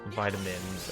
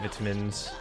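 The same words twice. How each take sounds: First: It is said with an American pronunciation. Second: It is said with a non-American pronunciation. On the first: "I think that's how Americans pronounce it" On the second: "We say vitamins"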